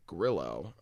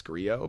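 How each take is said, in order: First: Grillo said slowly with an audible L; reported Argentine pronunciation. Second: Grillo with the double L as a Y; Spanish pronunciation. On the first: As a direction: say Grillo as GRIL-oh, sounding the L. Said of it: "the Argentine pronounces it". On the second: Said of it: "speaks some Spanish, I would imagine". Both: Shown as a demonstration.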